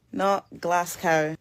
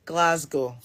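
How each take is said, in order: First: "Glasgow" said as glas-cow, ending like cow; mock the outsider's "Glasgow" with a cow sound; slow, "Glasgow" rhyming with cow; wrong pronunciation. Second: "Glasgow" said glaz-go, ending in a short o; falling, "Glasgow" as glaz-go; local pronunciation. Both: Shown as a demonstration.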